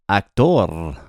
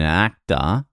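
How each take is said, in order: First: It is said with a Spanish pronunciation. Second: It is said with an Australian pronunciation. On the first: "it's actor in Spanish" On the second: "in Australian"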